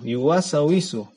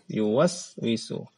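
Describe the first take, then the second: First: A vowel is inserted after the first s. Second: The first s has no vowel after it. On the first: The speaker calls it wrong. "terkadang di antara kita ada yang baca" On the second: The speaker calls it right. "sin yang pertama itu mati"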